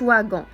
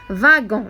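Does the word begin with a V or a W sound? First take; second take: W; V. First: The word begins with a W sound. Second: The word begins with a V sound. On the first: The speaker calls it wrong. "ما كنقولوش واغون" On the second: The speaker calls it right. "كتنطق فيهم V بحال هذه فاغون"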